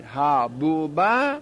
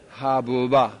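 First: حبوبه stretched very slowly, syllable by syllable; حبوبه said slowly with a rising end; drawn-out demo. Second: Said in the usual way. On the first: Shown as a demonstration. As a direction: spell out حبوبه slowly as hab-bu-ba with a rise.

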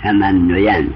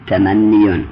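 First: "تمنین" as the underlying form, u vowel ahead of the ya; original vowel before ya. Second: "تمنیون" as the changed form, i vowel ahead of the ya; kasra before ya. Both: Shown as a demonstration. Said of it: "ما قبل یا را به مناسبت یا کسره دادیم".

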